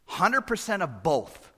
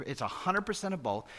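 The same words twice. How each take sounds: First: "Hundred" lifted and slowed; slow, weighty "Hundred percent of both"; stress on hundred. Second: Said in the usual way. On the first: Shown as a demonstration.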